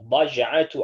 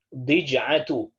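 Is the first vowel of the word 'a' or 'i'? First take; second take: a; i. First: The first vowel is an 'a' sound. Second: The first vowel is an 'i' sound.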